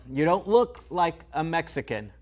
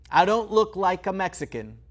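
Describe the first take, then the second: First: Sarcastic echo of the remark; mocking repeat. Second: "look" hit hard and falling; stress on look. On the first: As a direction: repeat it back with scorn. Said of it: "I get it". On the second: Acted. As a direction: lean on the word "look" pointedly. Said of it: "to you".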